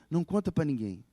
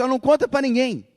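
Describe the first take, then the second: First: Said in the usual way. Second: Loud, high urgent telling; Jesus says tell no one. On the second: Retold or imitated. Preacher voicing Jesus to the healed girl's family, loud and high. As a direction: call it out, urging silence. Jesus tells them keep quiet.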